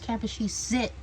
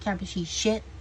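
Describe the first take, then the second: First: The last syllable begins with a plain s sound. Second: The last syllable begins with a sh sound. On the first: The speaker calls it right. "it's Capachi sit" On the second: The speaker calls it wrong. "not Capachi shit"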